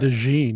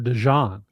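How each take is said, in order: First: The name is not said like the mustard. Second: The name is said like the mustard Dijon. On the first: The speaker calls it wrong. "He's not Cooper DeJean" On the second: The speaker calls it right. "it's like the mustard"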